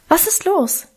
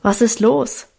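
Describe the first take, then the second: First: Higher, lighter voice for the younger sister; higher girl voice. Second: Said in the usual way. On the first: A narrator's reading. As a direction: lift it into a young girl's voice. Minchen asks.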